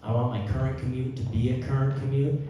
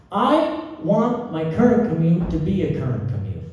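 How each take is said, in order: First: Said in the usual way. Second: "I want my current commute" punched out high and loud; arrhythmic, atonal. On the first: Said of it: "I'll keep being arrhythmic". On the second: Shown as a demonstration. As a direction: jolt "current commute" out louder and higher, off the beat. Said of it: "I'll keep being arrhythmic, you know? Atonal".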